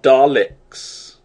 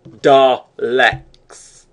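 First: The second syllable sounds like 'licks'. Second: The second syllable sounds like 'leks'. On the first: The speaker calls it wrong. "Not Daleks. They don't lick you to death" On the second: The speaker calls it right. "And I was correct"

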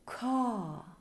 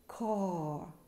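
First: The vowel is long with no R sound. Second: The vowel ends with a pulled-back R sound. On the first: "AR мы читаем A" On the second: "Теперь американский вариант. Язычок оттягиваем назад"

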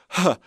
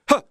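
First: The vowel starts softly with a breathy h. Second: The vowel starts abruptly with a hard attack. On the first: The speaker calls it right. "It's called a soft onset, but we're starting with a bit of an H" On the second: The speaker calls it wrong. "we don't want to be doing this"

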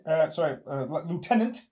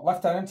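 First: It is said with an American pronunciation. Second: It is said with a British pronunciation.

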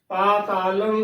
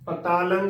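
First: The first vowel is a long 'aa'. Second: The first vowel is a short 'a'. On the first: The speaker calls it right. "ਪਾ ਤਾ ਲੰ ਉਚਾਰਨ ਕਰਨਾ ਹੈ" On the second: The speaker calls it wrong. "ਕੰਨਾ ... ਉਸ ਦਾ ਉਚਾਰਨ ਨਹੀਂ ਕਰਦੀਆਂ, ਪਤਾਲੰਗ ਹੀ ਉਚਾਰਨ ਕਰ ਦਿੰਦੀਆਂ ਨੇ, ਗਲਤ ਹੈ"

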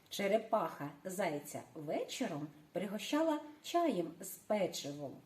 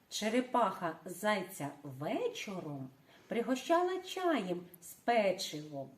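First: The sentence is said at a faster pace. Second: The sentence is said at a slower pace.

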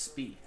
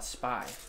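First: The vowel sounds like 'ee'. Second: The vowel sounds like 'eye'. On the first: The speaker calls it right. "It's Spee" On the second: The speaker calls it wrong. "Everyone would say, oh, Spy. But no, it's not like that"

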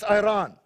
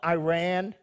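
First: Iran is pronounced a non-American way. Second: Iran is pronounced the American way. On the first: The speaker calls it right. "It's Iran" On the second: The speaker calls it wrong. "Not Iran, as the Americans say"

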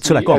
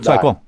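First: The three syllables are said separately and fully. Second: The first two syllables merge into one syllable.

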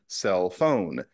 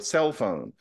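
First: The stress falls on the word phone. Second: The stress falls on the word cell. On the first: The object is still a novelty. "as I recall people saying in the early 1990s" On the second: The object is an established thing. "how we say"

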